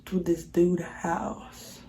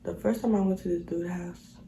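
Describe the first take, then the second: First: Said in the usual way. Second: Whispered. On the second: Real, not acted. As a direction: whisper it under the breath. Whispered retelling.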